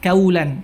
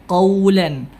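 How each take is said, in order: First: It begins with a light front k sound. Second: It begins with a deep, thick back q sound. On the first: The speaker calls it wrong. "Jangan sampai qaf dirubah menjadi kaf" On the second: The speaker calls it right. "tapi qaw, qa"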